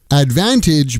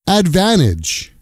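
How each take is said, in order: First: The T after the N is clearly pronounced. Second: The T after the N is dropped.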